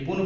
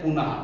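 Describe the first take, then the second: First: पुन ending plainly on न, no breath; without visarga. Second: पुनः ending with a breathy h after the a; with visarga. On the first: Teacher to students, पुन said without the final h. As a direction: say पुन short, stopping on the n. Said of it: "पुनः पढ़ते हैं". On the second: Teacher to students, पुनः with the h sound of visarga. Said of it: "जैसे मैंने विसर्ग लगाया". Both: Shown as a demonstration.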